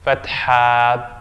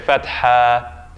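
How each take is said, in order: First: The word ends in a long a vowel. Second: The same.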